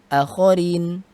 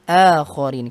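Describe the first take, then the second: First: The first vowel is held short. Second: The first vowel is held long. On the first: The speaker calls it wrong. "Bukan akharin" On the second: The speaker calls it right. "hamzah di sini dibaca dengan panjang"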